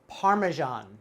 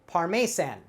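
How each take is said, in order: First: It is said in the standard way. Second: It is sounded out from the spelling. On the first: The speaker calls it right. "The way we pronounce this is Parmesan" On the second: The speaker calls it wrong. "I'm looking at this and saying Parmesan. But actually not correct"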